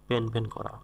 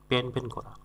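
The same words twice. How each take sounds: The two takes are said the same way.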